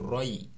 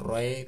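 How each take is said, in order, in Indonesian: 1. Kata ini berakhir dengan vokal 'ee' yang jelas dan terpisah. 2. Kata ini berakhir dengan bunyi 'y' pendek yang meluncur. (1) "tapi roi, tetap i" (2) "bukan roy"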